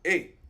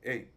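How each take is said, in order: First: The vowel is said strongly and fully. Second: The vowel is said very briefly. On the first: "esta es fuerte, la E" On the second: "esta que es bien cortita"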